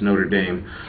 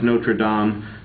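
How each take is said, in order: First: It is said with an American pronunciation. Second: It is said with a French pronunciation. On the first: This is how the US football team's name is said. "if you're in the U S and you're talking about the football team" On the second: This is how it is said in France. "if you're in France"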